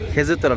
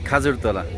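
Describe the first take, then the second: First: The first vowel is an 'e' sound. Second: The first vowel is an 'a' sound. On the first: This is the standard written form. The speaker calls it wrong. "খেজুরতলা না" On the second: This is the form locals actually use. The speaker calls it right. "খাজুর তলাই ব্যবহার করে"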